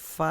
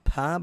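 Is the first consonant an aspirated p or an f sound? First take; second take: f sound; aspirated p. First: The consonant is an f sound. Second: The consonant is an aspirated p sound. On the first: The speaker calls it wrong. "దీన్ని ఫ అని కొంతమంది అంటూ ఉంటారు" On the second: The speaker calls it right. "త, థ అని ఎలా అన్నామో ప, ఫ అనాలి"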